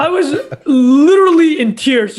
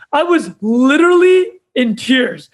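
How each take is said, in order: First: Real laughter bubbling through the words; laughing as he recalls it; laughing while telling. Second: Said in the usual way. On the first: Real, not acted. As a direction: talk through a laugh at the memory.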